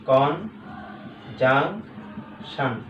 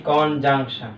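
First: "conjunction" very slow, as কন, জাং, শান; long gaps between the three syllables of "conjunction". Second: Said in the usual way. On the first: Shown as a demonstration. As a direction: break "conjunction" into three separate beats. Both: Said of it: "তাহলে কন একটা".

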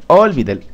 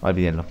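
First: Laughing through Olvídenlo, louder. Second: Said in the usual way. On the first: Real, not acted.

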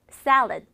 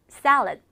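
No difference in how they are said.

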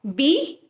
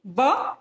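First: Said in the usual way. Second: Just the sound ब, clipped; letter sound ब instead of बी; phonic sound. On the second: Shown as a demonstration. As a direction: say ब as a short bare b sound, not the letter name बी. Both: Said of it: "बी का sound होता है ब".

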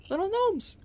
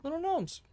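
First: High squeal of delight; gasp, then squeak it high; squeaky gnome voice. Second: High cutesy squeal; squeaky gnome voice. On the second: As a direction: squeak it like to a tiny pet. Repeats gnome greeting high. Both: Acted.

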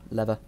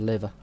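First: "Lever" said as LEV-uh; short first vowel in "Lever". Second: "lever" said as LEE-vuh; long first vowel in "lever". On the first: Player retrying the word, "Lever" said LEV-uh. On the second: Player spotting a switch, "lever" said LEE-vuh. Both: Real, not acted. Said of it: "what's going on with my English?".

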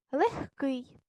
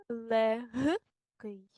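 First: Легкий with г said as х, "lekh-kyi"; devoiced г. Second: Легкий broken up with a voiced г, "le-h-kyi"; spelling pronunciation. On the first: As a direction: say легкий as spoken, "kh" before к. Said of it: "як парні глухі". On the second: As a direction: dictate легкий slowly as written. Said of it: "як саме ми пишемо". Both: Shown as a demonstration.

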